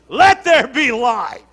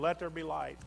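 First: It is said with strong passion and energy. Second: It is said flatly, without much feeling. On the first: The speaker calls it right. "he said it with some passion" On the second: The speaker calls it wrong. "That's how we read it"

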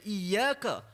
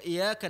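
First: The y sound is doubled and held. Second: The y sound is single and short. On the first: It refers to God alone. The speaker calls it right. "membawa maksud yang berbeza, hanya kepada engkau" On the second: It refers to the light of the sun. The speaker calls it wrong. "membawa maksud hanya kepada cahaya matahari"

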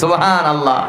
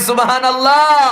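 First: The phrase is said at normal volume. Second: The phrase is said more loudly.

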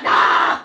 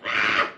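First: It is a scary German porn-style scream. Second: It is a plain, real sexual scream.

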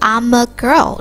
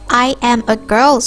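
First: I am is contracted into one syllable. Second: I am is said as two full words. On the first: "I'm a girl ဖြစ်တယ်" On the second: "I am a girl ဆိုပြီးပြောတော့"

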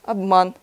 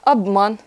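The two takes are said the same way.

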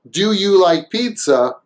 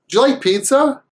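First: The d and y sounds stay separate. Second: The d and y blend into a j sound. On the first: "Instead of saying" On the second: "it actually sounds more like a J sound"

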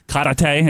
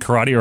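First: The word is said in an imitated, unusual way. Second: The word is said in a plain, ordinary way.

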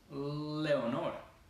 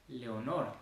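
First: The L is held long and vibrating. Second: The L is touched quickly and released. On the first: "en inglés sería Leonor" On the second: "se toca rapidísimo y se sale"

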